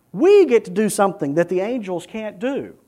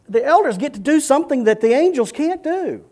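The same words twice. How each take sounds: First: "We" punched high at the start; stress on We. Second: High-pitched emphasis, "elders" lifted; stress on elders. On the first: Preacher turning the privilege to the congregation, stressing "We". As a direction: hit "We" hard, then let the line settle. Same line turned to us. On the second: Preacher telling what elders get to do, stressing "elders". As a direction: lift "elders" and keep the line high to the end. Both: Real, not acted.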